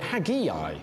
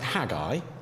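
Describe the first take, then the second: First: The name is said with an extra 'eye' sound. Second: The name is said without an extra 'eye' sound. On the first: The speaker calls it wrong. "add in an extra I and call it Haggai" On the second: The speaker calls it right. "I think you pronounce it Haggai"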